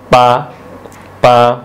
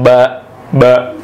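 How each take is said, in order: First: The word begins with a p-like sound. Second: The word begins with a voiced b sound. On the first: The speaker calls it right. "dibacanya ada sedikit P" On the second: The speaker calls it wrong. "Jadi bukan ba ba"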